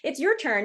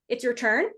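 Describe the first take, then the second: First: The voice falls at the end, like an instruction. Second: The voice rises at the end, like a question.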